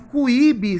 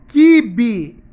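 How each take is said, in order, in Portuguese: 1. O U é pronunciado, começando com som de kw. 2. O U é silencioso, começando com um som simples de k. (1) "Se eu falasse cuíbe, seria K U" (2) "Se eu falo kibe, é K W"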